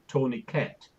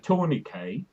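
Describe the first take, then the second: First: The final T is pronounced. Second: The final T is silent.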